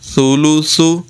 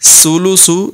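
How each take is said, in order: First: The consonants are said without a whistling hiss. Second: The consonants are said with a whistling hiss. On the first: The speaker calls it right. "بلکہ پڑھیں گے ثولوثو" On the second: The speaker calls it wrong. "سولوسو نہیں، یعنی سیٹی کے ساتھ نہیں پڑھیں گے"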